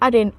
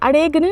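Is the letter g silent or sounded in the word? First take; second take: silent; sounded. First: The g is silent in the word. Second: The g is sounded in the word. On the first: The speaker calls it right. "अरेन पढ़ेंगे" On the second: The speaker calls it wrong. "अरेगन नहीं इसको pronounce करना है"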